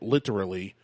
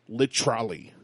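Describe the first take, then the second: First: It is said as the ordinary word 'literally'. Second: It is said sounding like 'lit trolley'.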